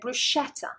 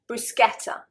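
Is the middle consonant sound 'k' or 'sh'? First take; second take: sh; k. First: The middle consonant is said as 'sh'. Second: The middle consonant is said as 'sk'. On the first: The speaker calls it wrong. "The British, I think probably nine point nine times out of ten, will pronounce it bruschetta" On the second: The speaker calls it right. "is going to be a K sound, so sk"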